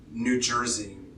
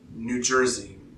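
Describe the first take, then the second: Both takes have the same delivery.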